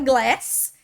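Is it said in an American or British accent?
American. It is said with an American vowel.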